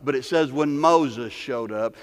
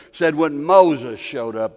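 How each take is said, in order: First: Said in the usual way. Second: Said when Moses showed up, louder and slower, leaning on Moses; slow down and hammer the phrase when Moses showed up; preacher's drawn-out repeat of when Moses showed up; emphatic repeat. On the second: Shown as a demonstration.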